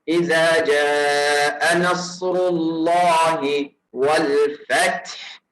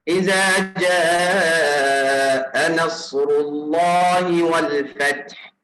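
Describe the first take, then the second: Both takes have the same delivery.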